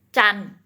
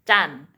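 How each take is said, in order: Both takes have the same delivery.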